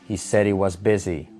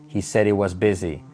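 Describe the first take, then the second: Both takes have the same delivery.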